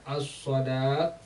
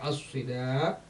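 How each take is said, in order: First: The vowel after the s sound is a. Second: The vowel after the s sound is i. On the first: "fathah shad" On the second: "kasrah shadnya"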